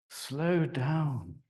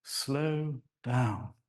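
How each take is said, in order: First: Drawn-out slow down. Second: Slow, lengthened vowels; elongated. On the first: Speaker demonstrating sound meaning, elongated. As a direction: stretch the words out, slow. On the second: Speaker showing elongation, slow and drawn out. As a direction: draw out slow and down. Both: Shown as a demonstration.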